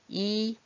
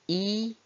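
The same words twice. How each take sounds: The two takes are said the same way.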